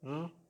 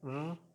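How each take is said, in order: No difference in how they are said.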